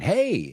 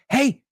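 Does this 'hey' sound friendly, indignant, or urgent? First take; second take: friendly; urgent. First: It is said warmly as a casual greeting. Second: It is said urgently to grab attention. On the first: The speaker is greeting someone. "same word, totally different intonation" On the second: The speaker wants someone's attention. "there's an urgency in your voice"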